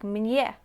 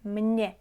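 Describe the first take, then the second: First: A y glide comes before the vowel. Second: The vowel comes without a y glide. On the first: The speaker calls it wrong. "Not like mnie" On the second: The speaker calls it right. "you would say mnie"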